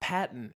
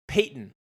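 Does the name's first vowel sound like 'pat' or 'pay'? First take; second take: pat; pay. First: The first vowel sounds like 'pat'. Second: The first vowel sounds like 'pay'. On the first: The speaker calls it wrong. "it's not Patton" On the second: The speaker calls it right. "It's like Peyton"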